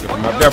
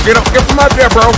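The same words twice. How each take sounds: First: Said in the usual way. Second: High, loud urgent yell. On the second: Real, not acted. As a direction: shout it at your teammate. Yelling at teammate to move.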